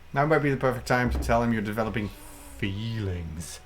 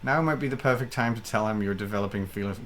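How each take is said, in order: First: It is said in a put-on character voice. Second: It is said in the speaker's ordinary voice. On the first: "I want it in your Colonel Saunders voice now" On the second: "my normal voice is not sexy enough"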